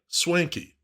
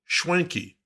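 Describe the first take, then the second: First: The word begins with a plain s sound. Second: The word begins with a sh sound. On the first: "like over-the-top fancy stylin'" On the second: "as if there was an H in there between the S and W"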